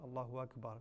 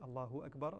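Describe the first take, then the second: Both takes have the same delivery.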